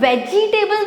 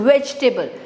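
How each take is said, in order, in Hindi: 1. इसमें चार पूरे अक्षर बोले जाते हैं। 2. इसमें तीन अक्षर बोले जाते हैं, जैसे veg-table। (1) "वेजिटेबल नहीं है" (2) "इट्स जस्ट वेजिटेबल"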